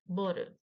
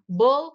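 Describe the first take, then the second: First: The word ends with an added vowel sound. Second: The word ends on a plain consonant sound.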